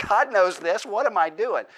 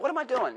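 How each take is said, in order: First: The same question, now louder and firmer, a scolding; louder self-rebuke. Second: Exasperated self-question. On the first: Preacher admitting God already knows, firm self-rebuke. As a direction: scold yourself: what am I doing. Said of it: "It's like". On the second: Preacher voicing his own guilty prayer, incredulous. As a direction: pitch jumps high in mock disbelief at oneself. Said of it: "it's like". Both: Retold or imitated.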